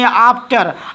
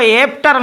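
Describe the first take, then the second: First: The first vowel sounds like 'ah'. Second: The first vowel sounds like 'e'. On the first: The speaker calls it right. "इसको पढ़ेंगे आफ्टर" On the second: The speaker calls it wrong. "इसको एफ्टर नहीं पढ़ेंगे"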